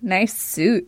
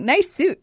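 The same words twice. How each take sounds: First: It sounds snarky and passive-aggressive. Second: It sounds cheerful and bright.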